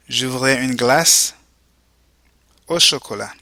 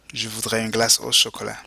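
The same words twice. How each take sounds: First: Split model phrase. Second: Said in the usual way. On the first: Shown as a demonstration. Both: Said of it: "go ahead and repeat".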